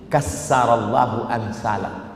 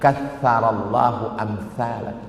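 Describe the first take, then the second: First: The consonant is said as a plain 's'. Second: The consonant is said as a soft 'th'. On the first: May God destroy people like you. The speaker calls it wrong. "Dia hilangkan sa jadi sin" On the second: May God multiply people like you. The speaker calls it right. "Bunyi yang betul"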